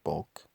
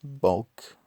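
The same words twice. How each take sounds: First: "bulk" said low and quiet; low, subdued "bulk"; rejected bulk. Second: "bulk" pitched higher with a falling end; higher, firmer "bulk", dropping at the end; corrected bulk. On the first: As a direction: toss off "bulk" softly as the wrong version. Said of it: "bulk, that's a funny word". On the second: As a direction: punch out "bulk" to test the word. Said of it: "that's a funny word". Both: Shown as a demonstration.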